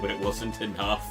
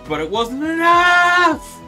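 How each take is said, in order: First: It is said in a calm, ordinary narrating voice. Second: It is said in a raised, excited imitation voice.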